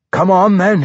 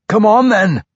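First: Dwarf calling out, raised. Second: High, loud dwarf challenge; shouted challenge. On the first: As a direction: call out a challenge gruffly. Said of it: "he called". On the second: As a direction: bellow the dare at the foe. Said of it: "he bade the drow warrior". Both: Acted.

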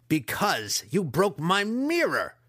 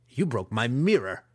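First: Loud, high, slow accusation; enraged shout. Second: Louder villain growl. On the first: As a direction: bellow the blame. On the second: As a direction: growl the grudge. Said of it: "the master growled". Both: A narrator's reading.

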